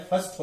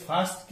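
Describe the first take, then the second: First: फर्स्ट as a short "fust"; short, weak फर्स्ट; weak syllable. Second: फास्ट with a long open "aa"; full, unreduced फास्ट; wrong vowel. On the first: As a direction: reduce फर्स्ट to a weak vowel, no r. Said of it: "second syllable वीक". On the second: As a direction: say फास्ट as "faast". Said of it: "के बजाय". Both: Shown as a demonstration.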